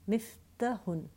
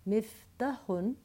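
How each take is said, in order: No difference in how they are said.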